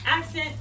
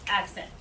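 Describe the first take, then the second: First: Louder, higher "Accent" punched; strong "Accent" on the beat; pushed accent. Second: Said in the usual way. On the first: Shown as a demonstration. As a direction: hit "Accent" with force. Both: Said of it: "push a little bit more".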